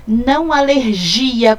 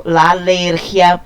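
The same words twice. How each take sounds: First: "alergia" stressed on the GI syllable, Portuguese way. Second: "la alergia" with stress on the ER syllable, Spanish way. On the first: Teacher showing the Portuguese "alergia" to avoid. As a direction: put the weight on the GI of "alergia", the wrong way. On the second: Teacher modelling "la alergia" with stress before the last syllable. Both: Shown as a demonstration. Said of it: "não alergia como no português".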